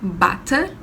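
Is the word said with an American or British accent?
British. It is said with a British accent. "o inglês britânico é"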